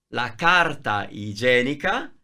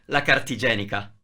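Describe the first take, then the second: First: Every word is said fully and separately. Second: The words run together, dropping a vowel.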